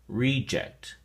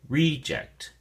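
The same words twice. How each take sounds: First: The stress is on the first syllable. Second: The stress is on the first syllable.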